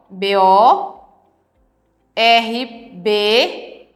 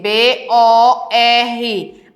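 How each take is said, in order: First: "B O R B" spelt letter by letter as the wrong split. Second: "B O R" spelt slowly as one syllable; right split. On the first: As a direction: sound out "B O R B" as the mistake. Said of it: "Não, não pode ser assim". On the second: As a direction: spell "B O R" slowly, the correct way. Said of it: "Tem que ser B O R". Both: Shown as a demonstration.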